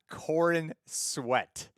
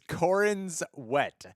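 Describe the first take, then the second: First: The s sound begins the second word. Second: The s sound ends the first word. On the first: The speaker calls it wrong. "not Corin Sweat" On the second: The speaker calls it right. "It's Corin's Wet"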